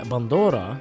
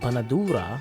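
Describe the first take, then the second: First: It is said the Palestinian way. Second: It is said the Lebanese way.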